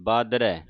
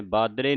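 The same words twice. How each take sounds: First: ਬਾਦਰੈ with open ai ending and no nasal; correct pronunciation. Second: ਬਾਦਰੇ ending in a closed e; wrong pronunciation. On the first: Teacher showing the double vowel sign, correct pronunciation. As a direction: end ਬਾਦਰੈ on an open, falling ai. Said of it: "ਰਾਰੇ ਨੂੰ ਦਲਾਵਾਂ ਲੱਗੀਆਂ". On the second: Teacher warning the congregation off a misreading, wrong pronunciation. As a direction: end ਬਾਦਰੇ on ay. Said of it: "ਬਾਦਰੇ ਨਹੀਂ ਕਹਿ ਦੇਣਾ". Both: Shown as a demonstration.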